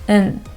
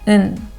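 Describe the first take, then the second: First: The word is cut to a short nasal sound. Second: The same.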